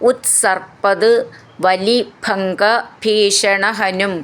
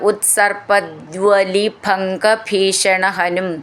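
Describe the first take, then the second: First: The first two words are said separately. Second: The first two words run together without a break.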